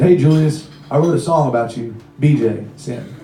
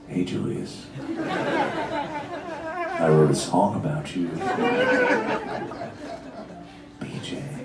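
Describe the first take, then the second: First: It is said in a normal voice. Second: It is said in a creepy voice.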